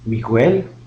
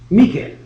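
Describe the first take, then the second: First: The u after the g is pronounced. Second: The u after the g is silent. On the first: The speaker calls it wrong. "ne dites pas Miguel" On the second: The speaker calls it right. "mais plutôt Miguel"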